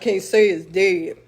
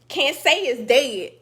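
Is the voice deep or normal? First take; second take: deep; normal. First: It is said in a put-on deep voice. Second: It is said in the speaker's normal voice.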